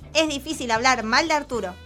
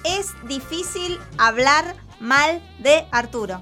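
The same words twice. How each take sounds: First: It is said at a fast pace. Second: It is said at a slower pace.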